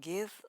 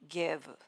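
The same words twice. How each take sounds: First: The word ends softly on the V sound. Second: An extra vowel is added after the V.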